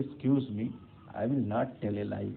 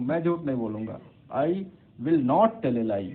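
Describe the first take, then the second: First: Polite and gentle. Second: Blunt, louder. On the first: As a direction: ask pardon first, then say it gently. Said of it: "आपको और ज़्यादा अच्छा लग रहा है सुनने में". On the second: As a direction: state it bluntly, no softening. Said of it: "तो वो उतना अच्छा लगेगा आपको". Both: Shown as a demonstration.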